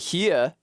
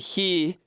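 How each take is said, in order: First: The word is said as two syllables. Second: The word is said as one syllable. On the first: "they say here" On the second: "they don't say he"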